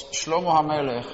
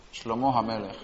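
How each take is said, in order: First: Said in the usual way. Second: "Shlomo" with the stress on the final o, as Shlomó; stress on the last O. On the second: Shown as a demonstration. Teacher correcting the name for the class, "Shlomo" stressed on the final o. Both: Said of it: "con el acento en la O, la última".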